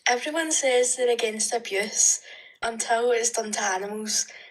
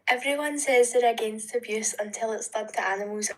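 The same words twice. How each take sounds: First: It is read slowly with pauses. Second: It is read quickly without pauses.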